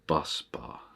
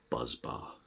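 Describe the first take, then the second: First: The first word ends with an s sound. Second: The first word ends with a z sound. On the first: The speaker calls it right. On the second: The speaker calls it wrong. "not buzz bar"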